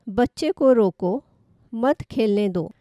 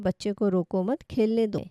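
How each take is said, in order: First: There is a pause right after 'roko'. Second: It is said without any pause inside.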